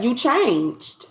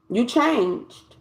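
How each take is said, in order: First: Slow drawn out. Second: Said in the usual way. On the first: Shown as a demonstration. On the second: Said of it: "Yep, you changed".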